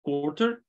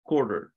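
First: It is said in a standard, non-American accent. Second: It is said in an American accent.

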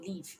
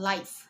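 First: The vowel sounds like a slightly long 'ee'. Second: The vowel sounds like 'eye'. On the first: It means to reside or be alive. "เป็นสระอีนะคะ, เสียงยาวนิดนึง" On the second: It means broadcast as it happens. "อันที่สองอ่านว่า"

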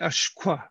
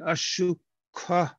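First: The short middle vowel is dropped. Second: The short middle vowel is kept. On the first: "they'll say ashkwa" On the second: "instead of saying ashukwa"

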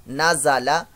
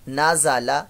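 No difference in how they are said.

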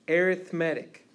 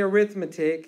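First: The stress is on the third syllable. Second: The stress is on the second syllable. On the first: It is used as an adjective. The speaker calls it right. "you say arithmetic" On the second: It is used as a noun. The speaker calls it wrong. "you don't say arithmetic"

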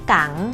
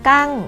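First: The syllable has a rising tone. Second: The syllable has a falling tone. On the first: "กังไม่จัตวา" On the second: "กังไม่โท"

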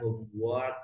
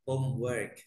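First: The second syllable has an O-like vowel. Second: The second syllable has an E-like vowel. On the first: The speaker calls it wrong. "Bukan homework ya, bukan O" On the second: The speaker calls it right. "tapi E"

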